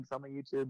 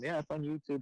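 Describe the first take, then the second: First: "my" gently leaned on, as the correction; stress on my. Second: Said in the usual way. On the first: Real, not acted. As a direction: lean into "my" in "it's on my YouTube".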